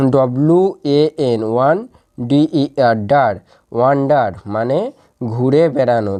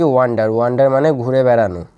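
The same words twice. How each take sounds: First: Slow: one, ডার, then wonder; slow syllable drill. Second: Said in the usual way. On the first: Shown as a demonstration. (ধীরে ধীরে one আর ডার আলাদা করে) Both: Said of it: "তাহলে এর একসাথে উচ্চারণ কি".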